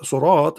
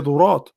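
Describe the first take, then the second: First: The word begins with an s sound. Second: The word begins with a z sound. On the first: This is the standard reading of the word. "he don't say surat" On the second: This is the alternative reading of the word. "he say ذرات"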